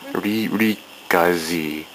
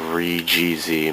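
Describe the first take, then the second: First: The end is said as one word. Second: The end is said as separate letters. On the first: It is said the way it is said in Japan. The speaker calls it right. "That's how they pronounce it in Japan" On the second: It is read the way it is written. The speaker calls it wrong. "it looks like"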